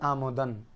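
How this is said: The first vowel is an open 'a' sound. This is the Indian subcontinent pronunciation. "আমাদের ভারতীয় উপমহাদেশে উচ্চারণ পড়লে আমদান"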